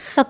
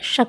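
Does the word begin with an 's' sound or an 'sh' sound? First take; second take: s; sh. First: The word begins with a plain 's' sound. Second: The word begins with an 'sh' sound. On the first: The speaker calls it wrong. "शक नहीं बोलेंगे" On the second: The speaker calls it right. "यहाँ पर शक में तालव्य शकार हैं"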